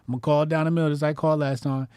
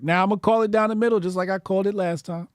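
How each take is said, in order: First: Said in the usual way. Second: Fast, higher, declarative; quick referee call. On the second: Shown as a demonstration. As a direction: call it like an umpire. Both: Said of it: "repeated line".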